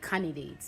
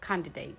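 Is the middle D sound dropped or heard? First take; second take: dropped; heard. First: The middle D sound is dropped. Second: The middle D sound is clearly heard. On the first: The speaker calls it wrong. "You don't take the D out and say candidate" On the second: The speaker calls it right. "So candidate"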